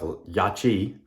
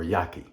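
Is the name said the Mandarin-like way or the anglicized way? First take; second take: Mandarin-like; anglicized. First: The name is said the Mandarin-like way. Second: The name is said the anglicized way. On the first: The speaker calls it right. "in Mandarin, um, it's actually produced more like" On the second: The speaker calls it wrong. "and not"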